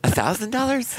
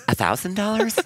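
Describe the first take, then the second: First: A thousand dollars? lifted high, pitch rising at the end; rising question tune. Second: Thousand dollars? rising up at the end; rising question tune. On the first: Husband echoing the price in disbelief, rising at the end. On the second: Husband questioning his wife's thousand-dollar spend, rising at the end. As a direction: ask a thousand dollars? with the pitch climbing at the end. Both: Shown as a demonstration. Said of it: "Up at the end, like there's a question".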